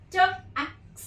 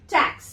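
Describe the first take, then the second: First: ट, then एक्स, as separate sounds; word broken into sounds. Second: Said in the usual way. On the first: Shown as a demonstration. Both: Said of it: "break कर करके बता रही हूँ".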